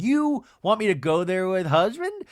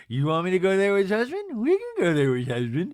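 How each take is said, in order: First: Said in the usual way. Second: Light mocking mimicry, swooping pitch; Meredith impression. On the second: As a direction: mimic her in an affected, slurred voice. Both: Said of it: "[name] does a little light Meredith".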